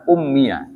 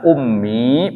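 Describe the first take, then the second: First: The word ends with a 'ya' syllable. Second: The word ends in a long 'ee' vowel. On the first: "ya-nya itu dibaca a" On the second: "Bisa ummi panjang"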